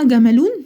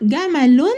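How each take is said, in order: First: The ending is a long 'oon' sound. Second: The ending is a short 'un' sound. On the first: The speaker calls it wrong. "انطقها جملون؟ لا" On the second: The speaker calls it right. "معناها تنوين"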